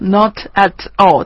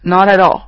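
First: Each word is said separately, without linking. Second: The words run together, linked into one. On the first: The speaker calls it wrong. "我们生活当中不会去说not at all" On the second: The speaker calls it right. "大家可能会去说not at all"

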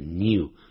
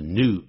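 First: It is said with a y-sound before the vowel. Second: It is said without a y-sound before the vowel. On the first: "而不念成 new，英式英语还是念 new" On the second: "习惯念成 new"

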